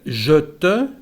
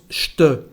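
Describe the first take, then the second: First: Both words are said in full with vowels. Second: The two words are contracted together. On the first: "En vez de decir je te" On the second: "tenemos una contracción aquí"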